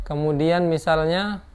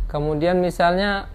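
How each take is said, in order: The two takes are said the same way.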